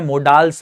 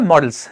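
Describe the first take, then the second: First: The second syllable has a full, long vowel. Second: The second syllable has a short, reduced vowel. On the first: The speaker calls it wrong. "गलत pronounce करते हैं, मोडाल्स बोलते हैं" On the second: The speaker calls it right. "Correct pronunciation है मॉडल्स"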